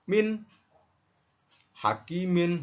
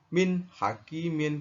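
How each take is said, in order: First: The sound breaks off between the two words. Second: The sound flows connected between the two words. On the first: The speaker calls it wrong. "terputusnya suara" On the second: The speaker calls it right. "harus sambung"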